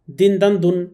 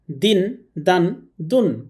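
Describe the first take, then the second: First: It is read quickly. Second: It is read at a normal pace.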